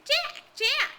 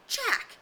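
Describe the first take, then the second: First: Mocking, much higher echo of the call; bitter mimicry. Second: Sharp, high call of a name; stern call. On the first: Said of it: "Jack's voice sounded in bitter mimicry". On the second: Acted. Ralph calls Jack to order.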